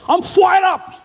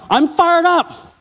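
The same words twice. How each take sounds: First: High, imitated Malaysian Singlish "fired up"; Singlish accent. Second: Slow, high, stretched "fired"; American way. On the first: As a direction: mimic a Singlish friend's "fired up". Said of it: "they call it Singlish. You know, they got an accent". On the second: Shown as a demonstration. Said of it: "as you would say in America".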